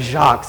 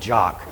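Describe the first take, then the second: First: The name is said the French way. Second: The name sounds like the English word jock. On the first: The speaker calls it right. "instead of Jacques" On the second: The speaker calls it wrong. "it called him Jock"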